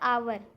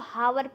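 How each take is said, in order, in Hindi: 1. यह शब्द स्वर की आवाज़ से शुरू होता है। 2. यह शब्द h की आवाज़ से शुरू होता है। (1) "लेकिन ये होता है आवर" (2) "बहुत लोग इसको हावर पढ़ते हैं"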